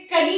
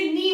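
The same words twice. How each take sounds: First: कनी with the k sounded before the n; teacher sounding the k in कनी; wrong pronunciation. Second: नी with a silent k, like knee; teacher giving the correct नी, k silent; right pronunciation. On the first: Teacher to students, showing the wrong k-sounded कनी. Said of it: "कनी नहीं कहते हैं". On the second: Teacher to students, giving the correct silent-k नी. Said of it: "हम इसे नी बोलते हैं". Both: Shown as a demonstration.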